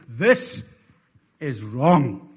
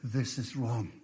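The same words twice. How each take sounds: First: It is said loudly and powerfully. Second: It is said a little louder.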